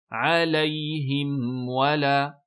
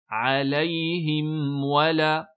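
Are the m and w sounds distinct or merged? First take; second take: distinct; distinct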